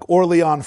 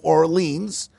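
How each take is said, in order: First: The name is said with a French pronunciation. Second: The name is said with an English pronunciation. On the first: The speaker calls it right. "I think it's more like Orléans" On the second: The speaker calls it wrong. "it shouldn't be pronounced as New Orleans"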